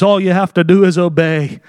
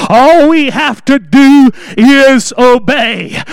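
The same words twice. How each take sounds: First: Said in the usual way. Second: Slow, loud, with All stressed; emphatic. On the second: Real, not acted. Preacher urging the congregation, slow and emphatic. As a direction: hammer home All we have to do is obey.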